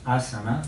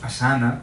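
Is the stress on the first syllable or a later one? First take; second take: first; later. First: The stress falls on the first syllable. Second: The stress falls on a later syllable. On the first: The speaker calls it right. "es asana, es, es esdrújula" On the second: The speaker calls it wrong. "no digamos asana, como tendemos a decir los españoles, porque cambiamos el, el acento de la palabra"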